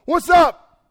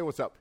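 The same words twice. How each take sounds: First: Loud, high, casual "What's up?"; casual shouted greeting. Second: Said in the usual way. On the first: Pretend. Jesus greeting the disciples, shouted and casual. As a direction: yell "What's up?" like a buddy walking in. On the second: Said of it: "he didn't say".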